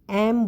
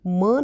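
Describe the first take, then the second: First: It begins with an e vowel sound. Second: It begins with an m consonant sound. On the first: The speaker calls it right. "हम इसको एम बोलते हैं" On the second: The speaker calls it wrong. "म नहीं बोलते"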